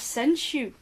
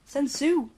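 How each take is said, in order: First: The last syllable starts with a sh sound. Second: The last syllable starts with an s sound. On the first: The speaker calls it wrong. "It was Senshu" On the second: The speaker calls it right. "Sensu, actually. ... because you were saying shoe"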